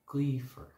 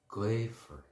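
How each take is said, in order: First: It is pronounced the Connacht and Ulster way. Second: It is pronounced in a non-Connacht, non-Ulster way.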